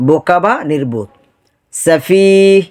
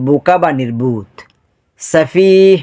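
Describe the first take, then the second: The two takes are said the same way.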